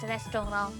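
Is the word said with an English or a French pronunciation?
French. It is pronounced the French way. "in French"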